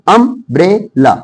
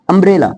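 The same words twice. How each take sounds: First: अम्ब्रेला split as am, bre, la; syllable by syllable. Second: Said in the usual way. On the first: Shown as a demonstration. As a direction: break अम्ब्रेला into three separate beats. Teacher breaks word into syllables. (अम्ब्रेला को तोड़-तोड़कर)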